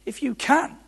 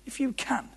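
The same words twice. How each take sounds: First: "If you can" thrown back high, rising on CAN; incredulous echo. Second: "If you can" said high but softer; questioning echo. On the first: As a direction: toss "can" up high like a challenge. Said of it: "So here's how it sounded". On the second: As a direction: quietly toss back "If you can", pitched high. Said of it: "You hear that?". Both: Shown as a demonstration.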